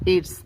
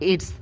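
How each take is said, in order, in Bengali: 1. শব্দ দুটো সংকুচিত হয়ে একটি সিলেবলে পরিণত হয়। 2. শব্দ দুটো সংকুচিত হয়ে একটি সিলেবলে পরিণত হয়।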